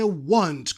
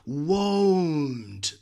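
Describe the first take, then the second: First: The vowel is a short 'ah' sound. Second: The vowel is a long 'oh' sound. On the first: "Todo el mundo dice want, como si fuera" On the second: "Ni Dios dice won't"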